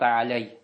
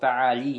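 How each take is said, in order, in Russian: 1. За L следует гласный 'a', затем 'y'. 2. За L следует гласный 'i'. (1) "не сказал та'аляй" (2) "Сказал та'али"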